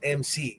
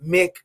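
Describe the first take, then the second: First: It is said as two separate letters. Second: It is said as one short syllable. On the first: The speaker calls it right. "it's M C" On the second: The speaker calls it wrong. "it's not Mick"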